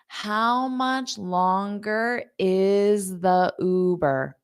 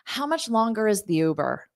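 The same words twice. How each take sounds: First: The sentence is spoken slowly. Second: The sentence is spoken quickly. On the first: "Now let's say it slowly" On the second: "so that's fast"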